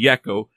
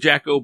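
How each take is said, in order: First: The name begins with a Y sound. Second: The name begins with a J sound. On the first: The speaker calls it right. "it's actually Jecho" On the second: The speaker calls it wrong. "it looks like Jecho"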